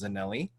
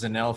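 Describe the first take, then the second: First: The name ends with an 'ee' vowel. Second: The name ends on the 'l' sound. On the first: The speaker calls it right. "but it actually is pronounced Zanelli" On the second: The speaker calls it wrong. "I thought it was Zanell for a while"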